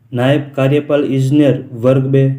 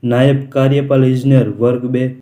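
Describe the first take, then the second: The two takes are said the same way.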